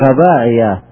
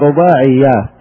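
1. الصوت الأول a، مع صوت ي مفرد. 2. الصوت الأول u، مع صوت ي مضاعف. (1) "بفتح الراء مو بالضم، وتخفيف الياء مو بالتشديد" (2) "بعضهم يقول رباعيات"

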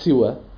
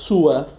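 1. الحركة الأولى كسرة؛ والحركة الأخيرة قصيرة. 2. الحركة الأولى ضمة؛ والحركة الأخيرة قصيرة. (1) "كسر السين مع قصر الألف" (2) "ضم السين مع قصر الألف"

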